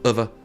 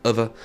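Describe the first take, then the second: No difference in how they are said.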